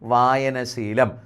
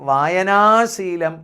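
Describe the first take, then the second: First: The vowel before the second part is short. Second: The vowel before the second part is long. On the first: The speaker calls it right. "ദീർഘിപ്പിക്കേണ്ട ശീലത്തിന് വായന എന്ന് വേണ്ട" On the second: The speaker calls it wrong. "എന്നല്ല"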